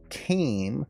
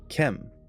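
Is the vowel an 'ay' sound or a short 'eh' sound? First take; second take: ay; eh. First: The vowel is a long ay sound. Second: The vowel is a short eh sound. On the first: This is how it is normally said. "he didn't say came" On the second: This is how the character in the clip said it. "he said kem"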